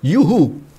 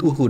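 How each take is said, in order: First: The word starts with a 'y' glide sound. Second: The word starts directly with a vowel sound. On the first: The speaker calls it right. "yang bener adalah yuhu" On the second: The speaker calls it wrong. "selama ini kita salah nyebut uhu"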